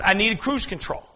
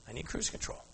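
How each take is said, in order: First: Said in the usual way. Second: I need cruise control said soft and hushed, rising at the end; hushed repeat to the congregation; soft echo. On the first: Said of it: "repeats the line as a contrast". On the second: Shown as a demonstration. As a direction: drop to a near-whisper and let it lift. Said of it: "repeats the line, much softer".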